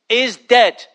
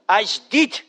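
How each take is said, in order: First: It is said in the speaker's ordinary accent. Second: It is said in a Scottish accent.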